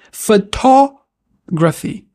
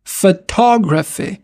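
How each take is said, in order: First: "Photography" slow, stress on TOG; correct English take. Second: "Photography" with French vowels, slow; wrong French-style take. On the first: Teacher models the right English way to learners. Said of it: "mais f". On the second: Teacher shows the wrong French way to learners. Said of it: "On dira pas photographie". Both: Shown as a demonstration.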